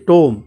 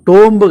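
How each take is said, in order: First: The final b sound is silent. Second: The final b sound is pronounced. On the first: The speaker calls it right. "ఇది టోమ్" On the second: The speaker calls it wrong. "టోంబ్ కాదండి"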